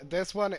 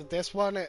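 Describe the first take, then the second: No difference in how they are said.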